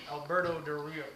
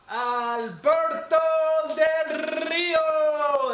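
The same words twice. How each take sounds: First: Said in the usual way. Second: Put-on drawn-out, loud, high Spanish-accented name call; slow, shouted Spanish-accent announcement. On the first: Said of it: "otherwise I can't say his name". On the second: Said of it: "I had to say it in that kind of accent".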